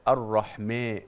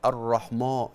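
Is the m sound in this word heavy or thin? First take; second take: thin; heavy. First: The m sound is light and thin. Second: The m sound is heavy and thick. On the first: The speaker calls it right. "ما الميم مرققة" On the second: The speaker calls it wrong. "لا تقولي الرحمن"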